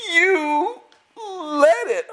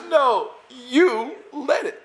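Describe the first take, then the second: First: Very slow, much higher, every word of "You led it" drawn out; emphatic repeat. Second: Slow, high, drawn-out insistence on "led"; insistent correction. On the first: Student repeating it slowly so the leader finally understands. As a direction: lean on each word like a revelation. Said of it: "And he goes". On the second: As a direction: stretch the words out, pressing the point that you led it. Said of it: "He goes, he goes". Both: Retold or imitated.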